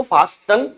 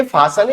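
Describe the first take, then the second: First: फास्टन with the T wrongly sounded; sounded T, mispronounced. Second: फासन with the T left silent. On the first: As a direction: say फास्टन as FAAS-tun, T pronounced. (फास्टन में T बोलकर गलत उच्चारण) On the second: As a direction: say फासन as FAA-sun, no T sound. (फासन में T का उच्चारण नहीं) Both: Shown as a demonstration. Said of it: "इसको फास्टन नहीं पढ़ेंगे".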